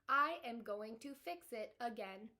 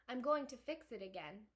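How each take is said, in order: First: It is read in a put-on robot voice. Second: It is read in the speaker's normal voice. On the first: The speaker calls it right. "try that again in my robot voice" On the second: The speaker calls it wrong. "I was not um, using my robot voice with Roz in that last part"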